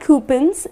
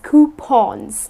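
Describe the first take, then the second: First: The last syllable does not rhyme with lawn. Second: The last syllable rhymes with lawn. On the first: The speaker calls it wrong. "it's not coupons" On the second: The speaker calls it right. "rhymes with lawn or Sean"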